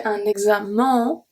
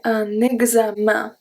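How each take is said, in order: First: Un examen with a plain, non-nasal un; the wrong way to say un examen; demonstrating the mistake in un examen; wrong pronunciation. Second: Un examen with the nasal un; the right way to say un examen; modelling the correct un examen; correct pronunciation. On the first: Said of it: "I don't say un examen". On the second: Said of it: "I say un examen". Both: Shown as a demonstration.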